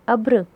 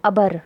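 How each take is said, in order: First: अब्र with b and r run together, no vowel between; half-sounded consonant. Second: अबर with a short vowel between b and r; reading without jazm. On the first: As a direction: say अब्र as one syllable, "abr". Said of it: "क्योंकि बे के ऊपर जज़म है". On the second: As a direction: say अबर in two syllables, "a-bar". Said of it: "जज़म नहीं होता". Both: Shown as a demonstration.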